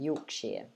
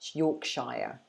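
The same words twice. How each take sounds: First: The ending sounds like 'sheer'. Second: The ending sounds like 'shire'. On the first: "so you say sheer at the end" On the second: "Americans tend to pronounce it Shire"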